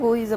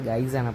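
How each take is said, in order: First: The vowel sounds like 'oy', as in 'boys'. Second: The vowel sounds like 'eye', as in 'guys'. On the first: "ഗോയ്സ് അല്ല"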